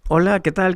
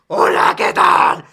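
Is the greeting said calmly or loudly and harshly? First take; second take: calmly; loudly. First: It is said in a calm, normal tone. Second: It is said loudly and harshly. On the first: This is the tone the speaker actually uses. "tu tono de voz sea normal" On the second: This is how the listeners perceive an upset person. "Escuchan así como un heavy metal"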